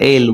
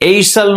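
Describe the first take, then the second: First: No s sound is pronounced before the l. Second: An s sound is pronounced before the l. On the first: The speaker calls it right. "વચાય" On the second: The speaker calls it wrong. "નો વચાય"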